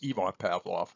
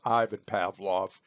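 First: The name is pronounced in the Russian way. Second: The name is pronounced in an Anglicized way. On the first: This is how the name is said in Russian. The speaker calls it right. "the correct pronunciation in Russian is" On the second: This is how other people commonly say it. The speaker calls it wrong. "You may sometimes hear other folks refer to him as"

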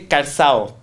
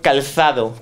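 First: The d between the final vowels is dropped. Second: The d between the final vowels is pronounced. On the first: This is the southern regional form. "In Andalusia, they don't say calzado, they say calzao" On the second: This is the standard Spanish form. "In Spain, we have, for example, the word calzado"

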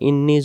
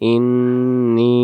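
First: The final vowel is short and rushed. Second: The final vowel is drawn out long. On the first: The meaning 'surely I' is lost. The speaker calls it wrong. "আমি যদি তাড়াহুড়া করে বলি" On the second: It means 'surely I'. The speaker calls it right. "এভাবে বলতে হবে"

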